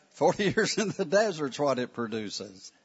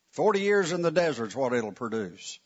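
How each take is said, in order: First: The line again with a laugh in the middle; laughing retake. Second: Said in the usual way. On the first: Shown as a demonstration. Teacher redoing the line, laughing at himself. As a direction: laugh through years, then finish it. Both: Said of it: "I didn't need that word".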